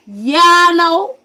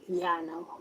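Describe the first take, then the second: First: High, slow, blaring imitation; loud reply. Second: Subdued reply. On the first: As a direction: belt out the mom's answer, drawn out. Mom's reply repeated loudly. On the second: Retold or imitated. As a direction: give the mom's answer quietly, without push. Mom's reply, first take subdued.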